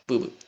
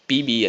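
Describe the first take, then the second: First: Each letter is said as a bare consonant. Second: Each letter is said by its full name. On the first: The speaker calls it right. "p b എന്നാ വായിക്കുക" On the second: The speaker calls it wrong. "പി ബി അല്ല"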